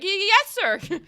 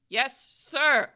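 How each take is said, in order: First: High, loud, startled stammer; stuttering rookie. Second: High, careful, drawn-out reply; rookie suppressing stutter. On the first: Rookie answers his boss, high nervous stutter. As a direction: trip nervously over the first word. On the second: Scolded rookie answers his boss, high and careful. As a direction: force it out without stammering. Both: Acted. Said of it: "Stop stuttering".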